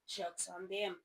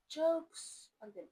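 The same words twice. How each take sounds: First: Said in the usual way. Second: Jokes on them, drawn out slowly and pitched high; savoring jokes on them as a slow triumphant tag; slow emphatic punchline. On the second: Shown as a demonstration.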